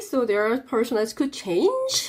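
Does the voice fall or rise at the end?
rise. The pitch rises at the end. More of the sentence seems to be coming. The speaker calls it wrong. "하고 내가 올렸다"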